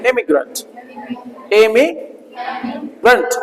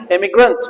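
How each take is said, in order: First: immigrant drawn out very slowly, every sound clear; slow model pronunciation. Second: Said in the usual way. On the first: Shown as a demonstration. Teacher models the word for students to repeat, slowly. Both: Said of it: "बोलो".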